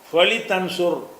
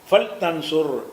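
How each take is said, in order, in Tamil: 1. L-க்குப் பின் i உயிரெழுத்து வருகிறது. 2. L-க்குப் பின் உயிரெழுத்து எதுவும் இல்லை. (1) "என்று சொல்லாமல்" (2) "லாமுக்கு சுக்குன் ஆக்கிடணும்"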